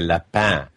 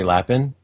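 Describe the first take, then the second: First: The name is said with a French pronunciation. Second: The name is said with an English pronunciation. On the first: "I always wanted to go French with it and say Lapin" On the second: "Do I pronounce yours right when I say Lapin?"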